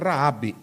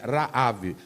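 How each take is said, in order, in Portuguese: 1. A palavra termina com som de b. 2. A palavra termina com som de v. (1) "Aí você vai pronunciar Raab, mas não é Raab" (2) "é Raav"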